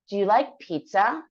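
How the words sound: The voice rises at the end. It shows it is a question. The speaker calls it right.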